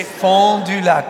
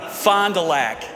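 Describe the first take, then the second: First: Fond du lac said with French vowels, drawn out; French pronunciation. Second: Fond du lac said American, as "FON-duh-lack"; local American pronunciation. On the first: French guest saying the town's name for his host, French pronunciation of "Fond du lac". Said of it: "Can you say". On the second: Host correcting the French guest, American pronunciation of "Fond du lac". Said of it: "No, no, no, no". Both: Shown as a demonstration.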